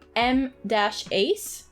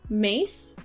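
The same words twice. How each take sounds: First: The name is said as two separate parts. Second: The name is said as one single word.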